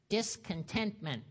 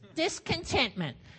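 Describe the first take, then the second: First: It is said in his normal voice. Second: It is said in a crotchety voice.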